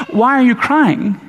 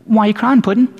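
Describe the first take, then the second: First: Slow, high, baffled question; confused. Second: Mock-tender, slightly higher coaxing; compassionate. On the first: Acted. Angels to weeping Mary, acted bewilderment. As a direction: stretch it out in sheer puzzlement. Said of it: "what if they're confused?". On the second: Angels to weeping Mary, gently compassionate. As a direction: coo it lightly like comforting a little one. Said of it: "Perhaps it was, uh, compassion".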